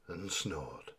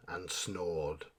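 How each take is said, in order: Both takes have the same delivery.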